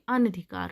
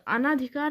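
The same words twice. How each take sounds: First: अनधिकार with no long naa; correct short vowel. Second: अनाधिकार with long "naa"; wrong long vowel. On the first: Teacher correcting students, अनधिकार with short middle vowel. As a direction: say अनधिकार as "an-dhikaar". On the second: Teacher showing the error, अनाधिकार with long naa. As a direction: say अनाधिकार as "anaa-dhikaar". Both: Shown as a demonstration. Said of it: "अनाधिकार नहीं अनधिकार होता है".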